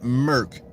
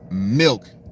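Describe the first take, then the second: First: The word is said like merc, without the l. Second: The word is said as milk, with the l. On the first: It is the Memphis way of saying it. The speaker calls it wrong. "they pronounce it like Merc" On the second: It is the standard way of saying it. The speaker calls it right.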